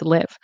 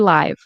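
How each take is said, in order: First: The vowel rhymes with give. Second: The vowel rhymes with five. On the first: It is the verb meaning to reside. "In this context, it's live ... like the verb" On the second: It means broadcasting in real time. "but it can be live. For example, I am going live on Instagram"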